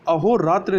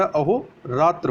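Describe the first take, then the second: First: अहोरात्र ending in an i or e vowel; wrong ending. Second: अहोरात्र ending in plain "tra"; correct ending. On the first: Teacher rejects the error, अहोरात्र with final "tri". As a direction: say अहोरात्र as "aho-ratri". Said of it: "अहोरात्र नहीं होता". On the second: Teacher corrects for learners, अहोरात्र without final i. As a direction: say अहोरात्र slowly as "aho-ratra". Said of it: "अहोरात्र होता है". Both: Shown as a demonstration.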